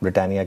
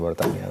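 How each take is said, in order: First: It starts with a 'br' cluster and 'i' vowel. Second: It starts with 'bar' and has a 't' sound. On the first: This is the name of the factory. "वो ब्रिटानिया की factory होती थी" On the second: This is how local conductors call out the stop. "वो conductor बोलते हैं बरतानिया"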